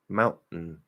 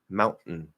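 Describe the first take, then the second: No difference in how they are said.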